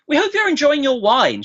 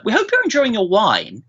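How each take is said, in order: First: Much higher, sing-song caller voice; imitating the wine lady. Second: Lightly voiced sing-song caller, higher pitch; a hint of a chirpy sales lady; imitating the wine lady. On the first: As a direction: play the cheery phone lady again, pitched well up. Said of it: "she says". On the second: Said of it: "a lady from the wine company who says".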